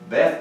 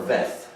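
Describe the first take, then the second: First: The word begins with a B sound. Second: The word begins with a V sound. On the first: "You can say it with the B sound" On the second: "or you can say it with the V"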